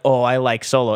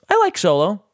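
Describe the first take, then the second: First: It is said at a normal, lower pitch. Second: It is said at a higher pitch.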